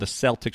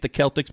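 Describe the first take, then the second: First: Celtics begins with a soft S sound. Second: Celtics begins with a hard K sound. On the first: This is how Boston says the name. "We call them the Celtics with a soft C" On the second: This is how other people say the name. "They say it's the Celtics"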